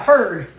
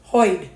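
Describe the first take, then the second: First: Said in the usual way. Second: "Hoid" said with a Boston oi for heard; drawn out Boston "Hoid". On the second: Shown as a demonstration. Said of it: "I ever hoid".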